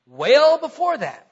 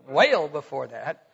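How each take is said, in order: First: Well stretched into a Southern weyl; drawled well with a Southern vowel; Southern drawl slip. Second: Slow Southern drawl on well, said as weyl; Southern accent demo. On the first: Real, not acted. Preacher slipping into Southern drawl. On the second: Shown as a demonstration. Preacher replaying his Southern slip for the congregation. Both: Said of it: "That's a good Southern accent there".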